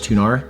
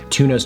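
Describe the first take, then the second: First: The word ends with an added R sound. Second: The word ends in a plain vowel, no R.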